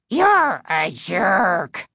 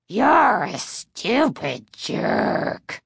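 First: Slow, rasping dummy growl; low throaty growl. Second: Very slow, rasping puppet snarl; nasty harsh growl. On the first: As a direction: growl it like an evil puppet. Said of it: "rasped ... low, throaty growl". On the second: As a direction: spit the insult like an evil dummy. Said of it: "repeated nastily in the same harsh growl". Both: A narrator's reading.

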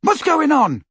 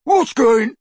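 First: High, loud call across; anxious shout. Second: High, loud taunting imitation; mocking mimicry. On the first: Ron demands news through the wall, shouting. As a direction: shout the question from afar. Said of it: "shouted Ron again". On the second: Crabbe copies Ron's question, mocking mimicry. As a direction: parody the friend's shouted question. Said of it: "mimicked Crabbe". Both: A narrator's reading.

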